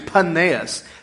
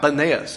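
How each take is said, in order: First: The name begins with a P sound. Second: The name begins with a B sound. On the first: The speaker calls it right. "But it's actually Panaeus" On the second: The speaker calls it wrong. "they could not pronounce the P. It comes out Benaeus"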